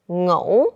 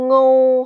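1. Tiếng này đọc thanh hỏi. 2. Tiếng này đọc thanh ngang.

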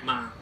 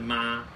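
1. 音高短促下降，且有力。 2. 音高保持高而平。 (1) "下面有一点，念" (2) "没有写的是妈，就跟一声一样"

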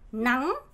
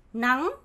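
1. 확 올라가요. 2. 확 올라가요.

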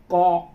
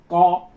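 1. Chữ này được đọc theo cách phát âm tiếng Quảng Đông. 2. Chữ này được đọc theo cách phát âm tiếng Quảng Đông.

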